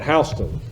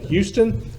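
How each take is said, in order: First: The name is said the way locals say it. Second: The name is said the way outsiders say it. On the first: The speaker is from the area. The speaker calls it right. "but Houston, Edward Houston" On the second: The speaker is not from the area. The speaker calls it wrong. "If they pronounce it Houston, I will know they are not from here"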